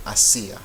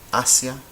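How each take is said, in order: First: Second "Asia" as a-SEE-a, three syllables, middle stressed. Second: First "Asia" as AH-sya, two syllables, first one louder; stress on first syllable. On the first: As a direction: break ia apart in "Asia" and lean on SI. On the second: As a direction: punch the opening A of "Asia", glide through sia. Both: Shown as a demonstration. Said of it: "These are two different words".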